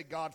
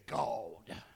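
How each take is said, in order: First: Said in the usual way. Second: "God" dropped very low and drawn out, mock-solemn; comic low "God"; funny God. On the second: Shown as a demonstration. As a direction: say "God" in a deep put-on preacher tone. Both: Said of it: "we say God funny too".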